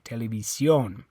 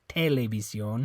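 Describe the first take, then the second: First: The stress is on the last syllable. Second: The stress is on the first syllable. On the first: The speaker calls it right. "It's on the O" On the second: The speaker calls it wrong. "it's not this E. You don't say televisión"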